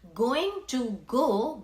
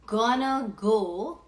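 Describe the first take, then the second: First: The words are said fully and separately. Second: The words are reduced and run together.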